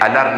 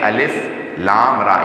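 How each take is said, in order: First: The letters are blended into one short word. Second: Each letter is named separately by its name. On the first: The speaker calls it wrong. "इसे अलर नहीं पढ़ेंगे" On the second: The speaker calls it right. "बल्कि पढ़ेंगे अलिफ लाम रा"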